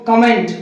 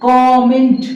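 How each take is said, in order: First: कमेंट as 'kuh-MENT'; weak first vowel in कमेंट, weight on 'ment'; common mispronunciation. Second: कमेंट as 'KAW-ment', louder first syllable; correct pronunciation. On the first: Teacher shows how people say it, mispronounced. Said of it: "लोग इसको बोलते हैं". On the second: Teacher gives students the right form, carefully pronounced. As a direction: lengthen the opening 'kaw' in कमेंट. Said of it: "इसको बोला जाता है". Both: Shown as a demonstration.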